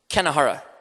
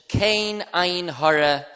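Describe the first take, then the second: First: The words are run together into one word. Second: The three words are said separately and clearly.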